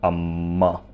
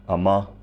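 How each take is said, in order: First: The m consonant is held long and doubled. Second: The m consonant is short and single. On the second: "the difference between amma and amma"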